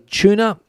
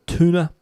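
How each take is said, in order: First: Tuna is said in a non-American way. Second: Tuna is said the American way.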